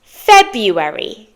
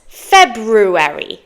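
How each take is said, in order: First: February slowly without the first r, FEB-yoo-erry; everyday pronunciation. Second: February slowly with both r's, FEB-roo-erry; spelling pronunciation. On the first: Teacher returns to the spoken form, everyday pronunciation. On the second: Teacher shows how it is spelt, spelling pronunciation. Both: Shown as a demonstration. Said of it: "But it's spelt February".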